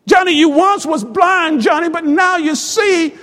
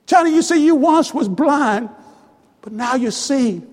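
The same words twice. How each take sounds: First: Raised, emphatic preacher's delivery; joyful proclamation. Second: Gentle reassurance. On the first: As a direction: proclaim it to the returning son with fervour. Father repeats it with rising joy. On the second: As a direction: reassure him, letting the last words drop. First, gentler take of father's words. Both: Acted.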